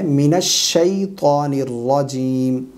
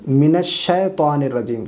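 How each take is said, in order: First: الشیطان with a clear, drawn-out "shay" diphthong; correct pronunciation. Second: الشیطان with a plain "she" vowel, no y-glide; common mispronunciation. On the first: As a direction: slowly glide "shay" in الشیطان and hold the long vowels. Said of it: "لفظ ہے". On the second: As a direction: say الشیطان quickly as "shetaan", without drawing it out. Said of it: "اس میں جو بعض لوگ غلطی کرتے ہیں". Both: Shown as a demonstration.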